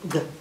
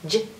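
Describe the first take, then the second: First: The letter is said with a hard g sound. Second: The letter is said with a soft j sound. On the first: "G is his hard sound" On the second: "no, that's his soft sound"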